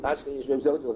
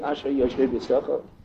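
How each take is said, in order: First: It is rattled off flatly without vocal inflection. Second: It is said with inflection and feeling. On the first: The words are said only out of obligation. The speaker calls it wrong. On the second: The speaker truly means the words. The speaker calls it right.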